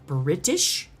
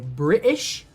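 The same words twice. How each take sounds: First: The middle T is clearly pronounced. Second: The middle T is dropped, British-style.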